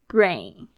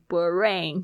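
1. b和r连在一起发。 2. b和r是分开发的。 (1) "brain OK" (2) "你不要念成b 了、变成brain 就不对"

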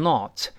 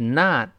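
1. 元音读起来是圆唇的，像 'oh'。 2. 元音读起来是张口的，像 'ah'。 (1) "还有好多同学读成not" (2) "我们如果读美音的话，就直接发啊"

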